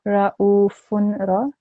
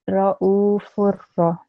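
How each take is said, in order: First: An audible nasal n sound comes before the r. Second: No nasal sound; the f vowel merges into r. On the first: The speaker calls it wrong. "not ra'ufunra" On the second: The speaker calls it right. "without the nasal sound, That's the correct way of saying it"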